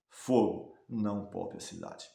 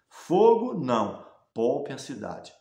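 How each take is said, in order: First: The pause comes right after 'fogo'. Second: The pause comes right after 'não'.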